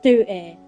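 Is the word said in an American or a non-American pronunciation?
American. It is said in an American pronunciation. The speaker calls it wrong. "not duty"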